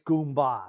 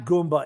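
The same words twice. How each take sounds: First: The word is said in an Italian-American way. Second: The word is said in a plain English way. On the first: The speaker calls it right. "It's Italian, like hey, you Goomba" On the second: The speaker calls it wrong. "it's not Goomba"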